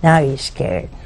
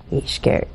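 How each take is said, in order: First: Said in the usual way. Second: Hushed whisper, much softer. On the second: Shown as a demonstration. Repeating that the dead man is scared, in a whisper. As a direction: drop to a fearful whisper.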